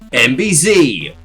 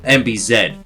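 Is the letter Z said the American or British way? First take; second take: American; British. First: The final letter is said the American way. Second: The final letter is said the British way.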